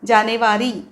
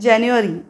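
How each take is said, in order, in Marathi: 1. या शब्दाचा मराठी उच्चार आहे. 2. या शब्दाचा इंग्लिश उच्चार आहे.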